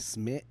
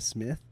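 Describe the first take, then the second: First: The name ends with a plain t sound. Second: The name ends with a th sound. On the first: "it always sounds like I'm saying Smith" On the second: "instead of Smith"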